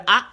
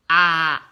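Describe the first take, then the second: First: "A" as a brief, quick a; short clipped vowel "A". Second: "A" held long and louder; sustained aa sound for "A"; long vowel. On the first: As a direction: cut the "A" short. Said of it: "les voyelles brèves". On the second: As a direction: stretch out "A" firmly. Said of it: "les voyelles longues". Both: Shown as a demonstration.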